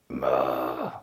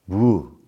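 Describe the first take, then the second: First: The word begins with an m sound. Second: The word begins with a w sound. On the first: This is the Japanese reading of the word. "that's how everybody says it" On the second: This is the Chinese reading of the word. "What would we have said in Chinese?"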